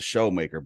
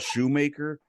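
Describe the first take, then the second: First: The first syllable sounds like 'show'. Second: The first syllable sounds like 'shoe'. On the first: This is how the man said his own name. "he pronounced it showmaker" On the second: This is how the name is spelled. "it spells shoemaker"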